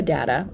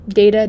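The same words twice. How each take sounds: First: "data" said DAT-uh; short-A pronunciation. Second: "data" said DAY-tuh; AY sound opening "data"; long-A pronunciation. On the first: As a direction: say "data" with an open A, not AY. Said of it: "or do you say data". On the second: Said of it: "do you say data". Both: Shown as a demonstration.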